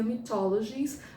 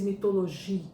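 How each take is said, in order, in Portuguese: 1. A palavra é pronunciada com sons ingleses. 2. A palavra é pronunciada com sons franceses. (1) "em inglês seria" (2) "no francês"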